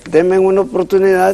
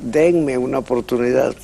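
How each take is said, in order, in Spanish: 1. La M va antes que la N. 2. La N va antes que la M. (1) "no le dan trabajo" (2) "debe decir"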